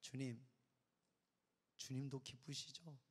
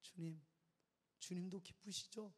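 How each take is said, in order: First: Soft, slow tender prayer to God. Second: Soft repeated tender plea; whisper-soft gentle plea; soft prayer. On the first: Pastor recalls praying to God, tender and soft. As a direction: ask God softly, tenderly. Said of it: "딱 한마디 했어". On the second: Pastor repeats his prayer to God, softly. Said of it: "이 말 한마디 했어". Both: Retold or imitated.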